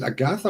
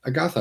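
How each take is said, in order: First: Agatha with a hard t in place of th; T pronunciation. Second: Agatha with a soft th in the last syllable; TH pronunciation. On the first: Streamer asks viewer how to say her name, Agatha with a plain T. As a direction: say "Agatha" as "a-GAH-ta". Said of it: "just pronounce the T". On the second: Streamer asks viewer how to say her name, Agatha with th. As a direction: say "Agatha" with th as in "think". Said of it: "with a T H". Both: Shown as a demonstration.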